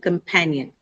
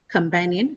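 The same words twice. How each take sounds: First: The stress is on the second syllable. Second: The stress is not on the second syllable. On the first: The speaker calls it right. "second syllable pan is the one which carries the stress" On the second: The speaker calls it wrong. "not companion"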